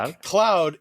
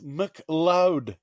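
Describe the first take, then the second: First: The second part sounds like the word cloud. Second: The second part starts with an l sound. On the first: The speaker calls it wrong. "It's not" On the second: The speaker calls it right. "it's McLeod"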